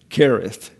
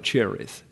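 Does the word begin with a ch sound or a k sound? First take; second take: k; ch. First: The word begins with a k sound. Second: The word begins with a ch sound. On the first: The speaker calls it right. "the K here is to help you out on pronunciation" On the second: The speaker calls it wrong. "not call it Cherith"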